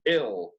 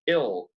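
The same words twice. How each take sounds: First: The vowel is a relaxed, short 'i' sound. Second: The vowel is a relaxed, short 'i' sound.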